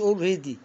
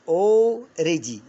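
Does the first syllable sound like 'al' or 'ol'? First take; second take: al; ol. First: The first syllable sounds like al. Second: The first syllable sounds like ol. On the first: The speaker calls it wrong. "لا مش already، ده مش إنجليزي" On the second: The speaker calls it right. "already already يعني بالفعل"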